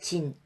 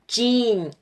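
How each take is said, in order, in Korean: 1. 한국식 발음이에요. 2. 영어식 발음이에요. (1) "우리가 그 그냥 청바지 진 할 때 진이라는 걸 하잖아요" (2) "영어로 진을 하면"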